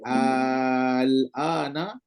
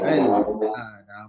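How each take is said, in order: First: The opening vowel is stretched out long. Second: The opening vowel is kept short. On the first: "baca surah ibdal enam harakat" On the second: "dibaca secara tasdil ... tak adalah panjang"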